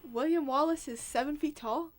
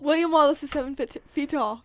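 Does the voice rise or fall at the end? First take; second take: rise; fall. First: It is said like a question, rising. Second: It is said as a statement, falling.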